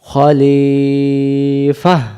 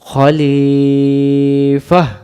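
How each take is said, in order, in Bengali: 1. শব্দটি নরম 'ah' ধ্বনি দিয়ে শেষ হয়। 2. শব্দটি নরম 'ah' ধ্বনি দিয়ে শেষ হয়।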